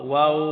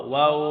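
The two takes are said the same way.

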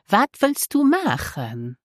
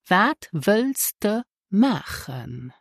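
First: The pronoun is said in its full form, du. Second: The pronoun is said in its weak form, de.

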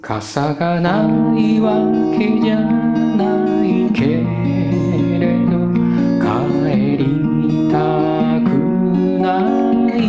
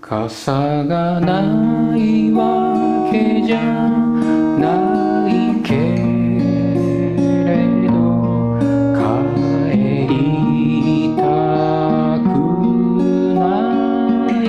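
First: It is said at normal speed. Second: It is said slowly.

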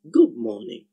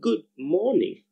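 First: The d at the end of good becomes b. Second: The d at the end of good is kept.

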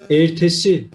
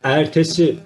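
First: The first E is closed. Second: The first E is open. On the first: "kapalı" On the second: "açık"

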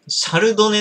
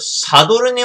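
First: The middle sounds come as 'rudo'. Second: The middle sounds come as 'doru'. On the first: The speaker calls it right. "シャルドネなんだね" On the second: The speaker calls it wrong. "これずっと思ってたんだけど、シャドルネワインじゃない"

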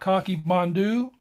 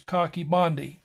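First: The name is said with an anglicized pronunciation. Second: The name is said with a Welsh pronunciation. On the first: This is how many people commonly say it. "A lot of people will call it" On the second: This is how it is said in its original language. "the Welsh pronunciation is"

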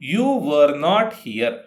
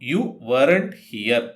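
First: 'Were not' is said as two full words. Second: 'Were not' is joined into one word, weren't.

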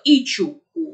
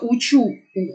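First: The first word begins with an 'ee' vowel. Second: The first word begins with an 'oo' vowel. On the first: The speaker calls it wrong. "он сказал «ичу у»" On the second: The speaker calls it right. "он не сказал «я учу у»"

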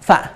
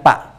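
First: The word begins with an f sound. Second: The word begins with a p sound. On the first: The speaker calls it right. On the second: The speaker calls it wrong. "bukan pak"

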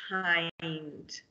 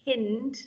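First: The vowel is a long i sound. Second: The vowel is a short i sound. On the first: The speaker calls it right. "It's k-i-nd, kind" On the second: The speaker calls it wrong. "instead of reading it k-ind, kind, that's not a real word"

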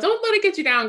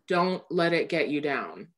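First: It sounds bright, peppy and sassy. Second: It sounds tired and heavy, like a warning. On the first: It is light, casual encouragement. "the bright, like, peppiness or like sassiness" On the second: It is a serious warning about survival. "It was very weary. It was like a warning"

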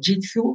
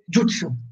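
First: The first vowel sounds like 'i'. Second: The first vowel sounds like 'u'. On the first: The speaker calls it wrong. "gli occidentali hanno inteso jitsu e lo pronunciano così, ma è sbagliato" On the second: The speaker calls it right. "In giapponese si legge jutsu"

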